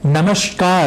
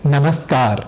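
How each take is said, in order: First: It is said with a palatal 'sh' sound. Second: It is said with a dental 's' sound. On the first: The speaker calls it wrong. "इसी शब्द में भी गलती कर जाते हैं, यानी हम उसे नमस्कार ऐसा बोल जाते हैं" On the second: The speaker calls it right. "होना चाहिए नमस्कार"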